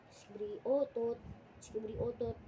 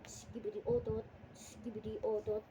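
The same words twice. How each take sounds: The two takes are said the same way.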